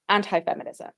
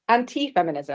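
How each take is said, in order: First: The word is said in an American accent. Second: The word is said in a British accent.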